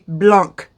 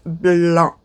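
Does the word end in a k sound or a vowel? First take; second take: k sound; vowel. First: The word ends with a clear k sound. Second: The word ends on a vowel, no k sound. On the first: The speaker calls it wrong. "A lot of people say blanc. You don't pronounce the C" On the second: The speaker calls it right. "Pretend the C isn't there. So it's blanc"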